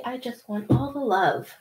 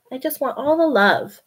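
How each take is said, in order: First: A touch softer, gently voicing the cat's wish. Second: The same line a little higher and fuller; voicing the cat again. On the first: Speaking for her cat who wants cuddles, mildly voiced. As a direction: put words in the kitty's mouth, lightly. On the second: Speaking for her cat again, a little higher. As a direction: repeat the cat's wish more openly.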